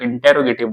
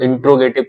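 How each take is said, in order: First: A vowel is heard between the t and r. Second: The t and r run together with no vowel. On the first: The speaker calls it right. "इसलिए आप इंटेरोगेटिव बोलो" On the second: The speaker calls it wrong. "इंट्रोगेटिव भी कुछ लोग बोलते हैं, तो इंट्रो थोड़ा अजीब लगेगा"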